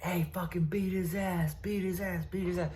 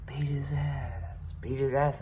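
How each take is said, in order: First: Higher, softer voices urging a fight; egging-on voices. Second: Slow, higher whisper; whispered egging-on. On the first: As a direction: imitate a crowd egging him on, higher and softer. Hearing people like. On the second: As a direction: breathe it like a voice in his head. I'm hearing. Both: Retold or imitated.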